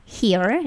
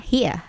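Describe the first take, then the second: First: Said in the usual way. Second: British "here" with the final R dropped; British accent. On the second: Shown as a demonstration. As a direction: say "here" the British way, ending in a soft schwa. (aksen British, "here" tanpa bunyi R) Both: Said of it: "Atau aksen Britishnya".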